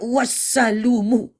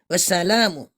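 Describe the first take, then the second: First: The vowel after the l sounds like u. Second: The vowel after the l sounds like a. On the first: The speaker calls it wrong. "dijadikannya gini... didamahkan" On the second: The speaker calls it right. "Tadi kan gini. Ini kan gini"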